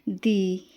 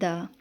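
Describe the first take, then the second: First: The word ends in a long 'ee' vowel. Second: The word ends in a short 'uh' vowel. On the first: "कुछ लोग कहते हैं दी" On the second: "कुछ लोग कहते हैं द"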